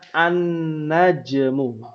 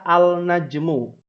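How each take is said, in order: First: The L merges into a doubled N sound. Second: The L of the article is clearly pronounced. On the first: The speaker calls it right. "tapi dibacanya an-najmu" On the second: The speaker calls it wrong. "tidak dibaca al-najmu"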